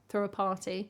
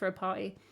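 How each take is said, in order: First: The T's are crisp, received pronunciation style. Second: The T's are softened, West Country style. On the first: "I pronounce like my T's like a kind of received pronunciation" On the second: "sometimes I would say like throw a party, because um, I'm from the West Country"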